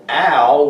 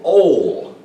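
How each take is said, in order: First: The syllable has an a vowel sound. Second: The syllable has an o vowel sound. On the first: "with an a sound" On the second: "with an O sound"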